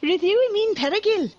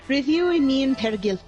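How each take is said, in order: First: It is said in a Ralph Wiggum voice. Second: It is said in his normal voice.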